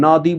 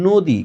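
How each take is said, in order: First: নদী with open "aw", nawdi; rejected spelling pronunciation. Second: নদী with closed rounded o, nodi. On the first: Teacher shows what we don't say, নদী with open অ. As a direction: open the first vowel of নদী as written. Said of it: "নদী বলি না". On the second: Teacher corrects to what we say, নদী with o. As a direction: round the first vowel of নদী to o. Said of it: "বলি নদী". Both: Shown as a demonstration.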